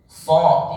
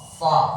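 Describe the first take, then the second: First: The syllable is said with rounded, pushed-out lips. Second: The syllable is said with still, unrounded lips. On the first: The speaker calls it wrong. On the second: The speaker calls it right. "bibir tetap"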